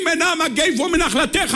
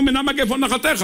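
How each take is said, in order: First: High, drawn-out mock cry of supplication; imagined crying out in prayer. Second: Said in the usual way. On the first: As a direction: cry the prayer slowly to the heavens. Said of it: "היינו צועקים עד שהשמיים היו נקרעים". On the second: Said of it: "אבל כשקראנו".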